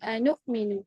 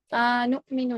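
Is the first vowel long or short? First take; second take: short; long. First: The first vowel is kept short. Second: The first vowel is drawn out long. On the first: The speaker calls it right. "यहाँ पे मद नहीं है" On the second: The speaker calls it wrong. "आनुमिनु नहीं है"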